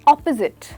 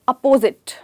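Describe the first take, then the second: First: The first syllable sounds like op. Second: The first syllable sounds like up. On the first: The speaker calls it right. "अप की जगह हम कहेंगे ऑप" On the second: The speaker calls it wrong. "ना कि अप"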